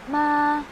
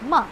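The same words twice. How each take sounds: First: The pitch stays high and level. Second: The pitch falls sharply and abruptly. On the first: "yung voice mo na flat lang din siya" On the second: "Pabigla lang siya. ... Going down"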